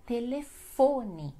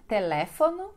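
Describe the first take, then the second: First: "telefone" as te-le-FO-ni, stress on FO; Portuguese pronunciation. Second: "teléfono" stressed on LÉ; Spanish pronunciation. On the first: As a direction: lengthen the FO in "telefone". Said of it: "mas em português é". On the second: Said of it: "Em espanhol vocês dizem". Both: Shown as a demonstration.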